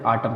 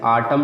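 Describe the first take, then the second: First: Said in the usual way. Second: Autumn with the final N sounded after M in "आटम"; गलत उच्चारण. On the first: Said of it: "आटम पढ़ते हैं". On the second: Shown as a demonstration. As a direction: say "आटम" wrongly, voicing the silent N. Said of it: "हम नहीं पढ़ते". ("आटम" के अंत में न की आवाज़ जोड़कर)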